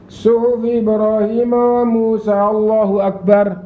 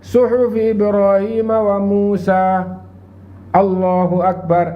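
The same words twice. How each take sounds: First: The two phrases run together without a pause. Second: A brief pause separates the two phrases. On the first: The speaker calls it wrong. "Itu namanya langsung" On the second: The speaker calls it right. "Ada diamnya sejenak"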